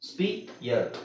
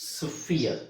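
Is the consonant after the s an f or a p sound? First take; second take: p; f. First: The s is followed by a p sound. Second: The s is followed by an f sound. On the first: "ನೀವು ಸ್ಪಿಯರ್ ಅಂತಾನೆ ಹೇಳಿ, no problem" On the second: "actually ಫ ಹೇಳಬೇಕು"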